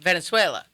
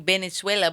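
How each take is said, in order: First: The word begins with a clear V sound. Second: The word begins with a B-like sound.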